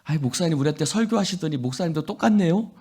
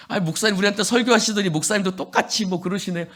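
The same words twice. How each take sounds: First: A teasing jab at the pastor, quick and lilting; mocking congregant. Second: Fast, teasing jab at the pastor; mocking congregant. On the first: Congregant teasing the pastor, mock-accusing. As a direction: rib the pastor lightly, rising at the end. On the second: Congregant needling the pastor, quick and mocking. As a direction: needle him quickly with a sneer. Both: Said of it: "목사님한테 가서 이런 거예요".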